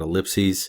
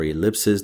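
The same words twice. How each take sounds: First: "ellipses" said ih-LIP-seez; ellipses ending in -seez. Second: "ellipses" said ih-LIP-siz; ellipses ending in -siz. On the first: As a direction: end "ellipses" on a long -seez, like a plural of ellipsis. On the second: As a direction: end "ellipses" on a short -siz, like a plural of ellipse. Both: Shown as a demonstration. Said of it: "depending on how you choose to pronounce it".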